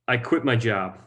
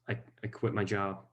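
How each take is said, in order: First: It is said outwardly, as an announcement to others. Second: It is said hesitantly and inwardly, as if to oneself. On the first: He is telling the family the news. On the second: He is absorbing the news himself.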